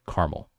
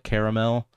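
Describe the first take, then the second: First: The word is said with a non-British pronunciation. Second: The word is said with a British pronunciation. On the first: It is the historically original form. The speaker calls it right. "Real pronunciation, history wise, is caramel" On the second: It is meant to sound extra fancy. The speaker calls it wrong. "The UK people, they call it caramel because they want to be extra fancy"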